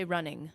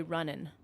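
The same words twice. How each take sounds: First: Said in the usual way. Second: "running" said as runnin', ending in a plain N; dropped G. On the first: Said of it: "I'll say running". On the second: Shown as a demonstration. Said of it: "I won't say running".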